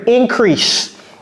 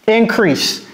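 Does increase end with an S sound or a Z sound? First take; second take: S sound; S sound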